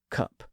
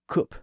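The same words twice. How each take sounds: First: It has the newer Southern English vowel. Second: It has the older Northern English vowel. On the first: This is the newer pronunciation. "that vowel sound was starting to change in the south of England" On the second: This is the older pronunciation. "The northern part retained the older vowel sound"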